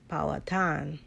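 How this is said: It is said with a regional twang. The speaker calls it right. "but it's Powhatan. ... that's that twang"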